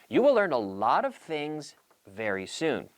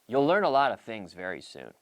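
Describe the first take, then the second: First: 'You will' is said as two full words. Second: 'You will' is contracted into one syllable. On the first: "Instead of saying you will learn" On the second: "nine out of ten native English speakers will say you'll"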